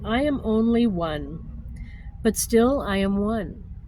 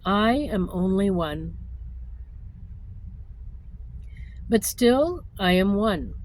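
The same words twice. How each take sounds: First: It is read at a faster pace. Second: It is read at a slower pace.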